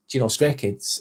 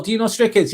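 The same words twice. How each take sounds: First: Low mumbled quote. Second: High chat read. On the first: Streamer mimicking people who always ask, low and soft. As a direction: drop it low and soft, a throwaway. Quoting what people keep asking. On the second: Streamer reading a viewer's question aloud, high and light. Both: Retold or imitated.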